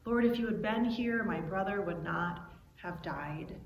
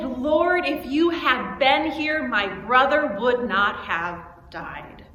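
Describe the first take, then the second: First: Subdued, softer, sinking at the end; quiet repetition. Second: Raised voice, slow and emphatic; angry grief. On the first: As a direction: echo the lament softly and low. Quiet repeat of Mary's outcry. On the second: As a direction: cry out in hurt, angry reproach. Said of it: "that anger in her voice". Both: Acted.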